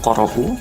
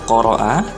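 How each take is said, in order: First: The word ends in a u vowel. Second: The word ends in an a vowel. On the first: The speaker calls it wrong. "atau qoro'u" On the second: The speaker calls it right. "ini harus dibaca qoro'a"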